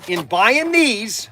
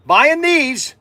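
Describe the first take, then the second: First: "these" drawn out slowly and leaned on; measured stress on "these". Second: "these" hit higher and louder; loud emphatic "these"; punched these. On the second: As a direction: throw "these" out with a push. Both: Shown as a demonstration.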